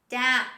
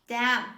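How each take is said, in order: Both takes have the same delivery.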